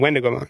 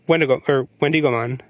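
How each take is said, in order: First: The syllable dig is not stressed. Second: The stress falls on the syllable dig. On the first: "and I keep saying" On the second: "you guys keep emphasizing the dig"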